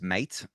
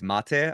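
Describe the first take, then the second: First: The word is said as the speaker naturally reads it. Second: The word is said as it's said in Argentina. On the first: The speaker calls it wrong. "I read this word as mate" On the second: The speaker calls it right. "It's it's mate, I think, if I'm saying it right"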